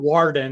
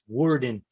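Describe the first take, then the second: First: The vowel sounds like the one in 'war'. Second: The vowel sounds closer to the one in 'word'. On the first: The speaker calls it wrong. "It's not it's not Warden" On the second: The speaker calls it right. "it's Worden"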